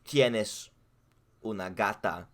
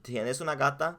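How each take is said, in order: First: "Tienes una gata" with a falling end like a statement; Spanish statement tune. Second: "Tienes una gata" pitched higher with "gata" rising at the end; Spanish question tune. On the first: Friend demonstrating Spanish intonation, falling statement. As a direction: say "gata" dropping, as a plain fact. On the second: Friend demonstrating Spanish intonation, rising question. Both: Shown as a demonstration. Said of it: "change the intonation".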